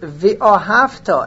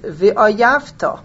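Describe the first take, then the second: First: The word is said with an 'oh' sound. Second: The word is said with an 'ah' sound. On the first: You should love God. The speaker calls it right. "instead of the word vi'ohavta, and you should love God" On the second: You should hate God. The speaker calls it wrong. "he mispronounced it"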